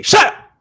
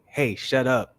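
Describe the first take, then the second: First: "Shut up" yelled high and loud; sharp shouted shut up. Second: Said in the usual way. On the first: Shown as a demonstration. Arguing on a podcast, the harsh way to say it, yelled. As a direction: snap "Shut up" at full volume. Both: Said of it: "it's the same thing".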